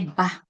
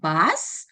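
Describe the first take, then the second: First: The word ends on the vowel, no S. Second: The word ends with an S sound. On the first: The speaker calls it wrong. "leave out the sounds" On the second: The speaker calls it right. "instead of saying bus"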